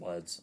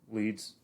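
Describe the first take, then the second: First: The vowel is short, as in 'bed'. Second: The vowel is long, as in 'bead'. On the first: The speaker calls it wrong. "I've always pronounced it Leds" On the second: The speaker calls it right. "Wouldn't it be Leeds?"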